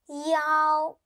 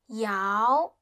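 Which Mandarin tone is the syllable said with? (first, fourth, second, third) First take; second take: first; second. First: It is said with the first tone. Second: It is said with the second tone.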